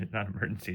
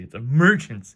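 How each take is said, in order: First: Said in the usual way. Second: "emergency" punched loud and high; exclaimed emergency. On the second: Shown as a demonstration. Correcting the listener on the exclamation mark, loud exclaimed "emergency". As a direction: hit "emergency" like a big exclamation point.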